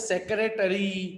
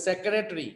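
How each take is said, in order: First: Every syllable of the word is pronounced. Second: One syllable is left out of the word. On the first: "जो लिखा होता है वही बोलते हैं" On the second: "ब्रिटिशर होते हैं वो सेक्रेटरी बोलते हैं"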